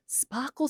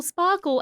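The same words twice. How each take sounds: First: Put-on baby voice. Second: Put-on baby voice, falling. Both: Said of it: "talk to your shoe in a baby voice".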